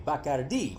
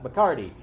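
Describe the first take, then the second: First: Bacardi with stress on the final syllable, bah-cah-DEE; correct Spanish pronunciation. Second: Bacardi with stress on the middle syllable, buh-CAR-dee; American pronunciation. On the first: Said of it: "Only she said it correctly". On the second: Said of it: "like people in the States do". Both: A narrator's reading.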